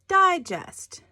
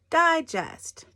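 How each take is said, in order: No difference in how they are said.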